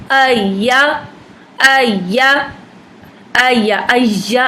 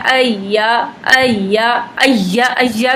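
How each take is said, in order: First: अय्या pushed hard like Urdu ya; wrong hard ya. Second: अय्या with a gentle rising ya; soft ya demo. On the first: Teacher showing the wrong way to read ya. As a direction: clamp down on अय्या. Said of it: "अय्या करके नहीं पढ़ना". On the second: Teacher demonstrating soft ya with tashdeed. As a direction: ease into अय्या softly. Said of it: "या को नरमी के साथ". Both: Shown as a demonstration.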